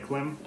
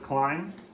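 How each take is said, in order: First: The vowel is short, rhyming with 'him'. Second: The vowel is long, rhyming with 'time'. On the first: This is the speaker's habitual pronunciation. "I still say Klim" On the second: This is the brand's own pronunciation. "they've said themselves it's Climb"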